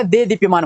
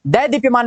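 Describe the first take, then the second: First: देदीप्यमान opened as de; corrected e vowel. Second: दैदीप्यमान opened as dai; mistaken ai vowel. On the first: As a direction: start देदीप्यमान on a pure e. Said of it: "होता है". (देदीप्यमान, दे से शुरू) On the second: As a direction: start दैदीप्यमान on a wide ai. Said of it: "नहीं होता". (दैदीप्यमान, दै से शुरू) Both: Shown as a demonstration.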